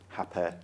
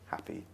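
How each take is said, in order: First: The final vowel is lax, Manchester style. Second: The final vowel is tense.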